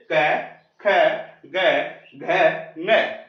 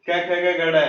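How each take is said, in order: First: क, ख, ग, घ each separate, from the throat; throat consonants. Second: ड़ as a flap instead of the nasal ङ; run-together mispronunciation. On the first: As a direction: end the row on a velar nasal ङ, not ड़. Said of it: "आपको बोलना है कंठ से". (कंठ से अलग-अलग, आख़िर में ङ) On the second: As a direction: rattle off क, ख, ग, घ, ड़ as one string. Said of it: "इस प्रकार से नहीं बोलना आपको". (सब एक साँस में, आख़िर में ड़) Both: Shown as a demonstration.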